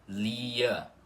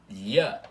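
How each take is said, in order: First: A plain L plus an 'ee' glide starts it. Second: A single palatal 'lh' sound starts the syllable. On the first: The speaker calls it wrong. "e não assim" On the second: The speaker calls it right. "é assim"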